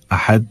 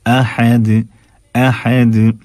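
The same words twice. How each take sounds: First: "अहद" with an indistinct final d; conversational "अहद", no echo on d; wrong swallowed d. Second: "अहद" with a clear echoing d at the end; careful tajweed "अहद", bouncing d; bounced final dal. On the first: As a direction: say "अहद" with the last d stopped short. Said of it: "लेकिन वाज़े नहीं". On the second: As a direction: recite "अहद" with d released, qalqala. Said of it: "दाल की आवाज़". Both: Shown as a demonstration.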